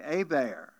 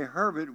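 First: Hebert said "Ay-bear", silent h, French vowels; Cajun Hebert. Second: Said in the usual way. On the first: Shown as a demonstration. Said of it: "we say Hebert". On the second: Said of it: "You say Herbert".

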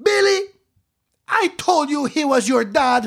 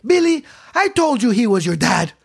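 First: High, loud public announcement; loud staged yell. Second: Raised, pointed declaration; mock loud announcement. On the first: Retold or imitated. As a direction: yell so the nun ten feet away hears. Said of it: "she yelled it loud enough". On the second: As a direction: yell it for the teacher to hear. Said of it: "She yelled it so loud".

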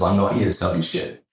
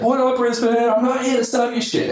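First: Said in the usual way. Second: Very high, hyped-up stage holler; Gary. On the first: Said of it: "The first thing he says is". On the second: Retold or imitated. Speaker greeting a Brisbane crowd as he runs out, high hyped impression. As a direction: imitate a speaker bursting onto stage. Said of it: "Gary runs out. The first thing he says".

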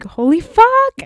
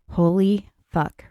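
First: Much higher, louder excited yelp; high gleeful holy fuck; mock hype shriek. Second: Said in the usual way. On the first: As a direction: squeal it like someone overhyped. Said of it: "you're just like".

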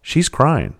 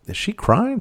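First: "crying" raised high, then falling as a statement; dawning realization. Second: High questioning rise on "crying"; puzzled question. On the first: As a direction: land on "crying" as a realization, not a question. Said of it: "and then I realized". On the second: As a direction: ask it unsure, lifting "crying" sharply upward. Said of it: "I was like". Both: Retold or imitated.

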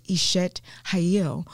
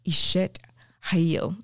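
First: "Ishet Hayil" drawn out slowly, stress on "Hayil", falling at the end; Hebrew term, slowed. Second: "Ishet Hayil" said carefully, syllable by syllable, in a Southern accent; Hebrew term. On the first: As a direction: linger on each syllable of "Ishet Hayil". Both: Shown as a demonstration. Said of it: "my southern accent is doing it justice".

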